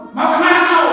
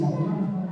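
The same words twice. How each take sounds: First: "Mau kemana kau?" said higher and louder, friendly lift on kemana; kindly read question. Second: Said in the usual way. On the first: Shown as a demonstration. A good-hearted reader hears the message friendly, higher and louder. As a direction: ask it brightly, as a kind reader hears it. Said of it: "yang membaca karena hatinya bagus". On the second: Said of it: "Itu maksud penulis".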